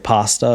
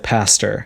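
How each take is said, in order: First: The word sounds just like the food. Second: The word does not sound like the food. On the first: This is how the speaker says it. "this is my accent. I say pasta, and it sounds like food" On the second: This is how the speaker does not say it. "I don't say pastor"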